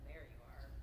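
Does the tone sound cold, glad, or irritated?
cold. It is said in a flat, cold tone. The speaker is not glad to see the person. The speaker calls it wrong. "not like"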